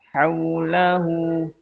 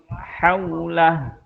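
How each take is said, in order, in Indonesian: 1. Kata itu berakhir dengan vokal panjang. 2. Kata itu berakhir dengan konsonan, tanpa vokal. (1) "tetap dua harokat" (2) "Begitu juga dengan yang uh, wawu kecil"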